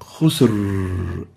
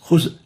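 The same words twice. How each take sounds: First: The final R is very loose and relaxed. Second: The final R is very tense and clipped. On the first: "extremely loose is wrong ... Khusr is also wrong" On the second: "if we really make it so tense and um, short ... it will sound like this"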